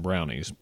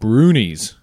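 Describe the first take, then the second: First: The first vowel sounds like 'ow' in 'cow'. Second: The first vowel sounds like 'oo' in 'boo'. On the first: "90% of whoever talks about them calls them brownies" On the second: "I saw that the pronunciation should be brunies"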